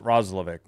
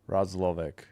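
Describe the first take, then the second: First: The name is said fast. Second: The name is said slowly. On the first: "We'll say it fast" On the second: "I think I was saying it too fast"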